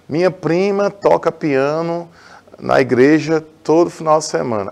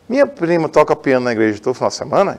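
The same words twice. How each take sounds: First: The voice falls at the end like a statement. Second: The voice rises at the end like a question. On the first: It is a plain statement. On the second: It is a question.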